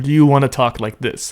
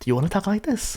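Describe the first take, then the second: First: The voice is deep and full. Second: The voice is higher and lighter.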